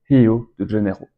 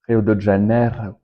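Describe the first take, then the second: First: Rio begins with an H sound. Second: Rio begins with an R sound.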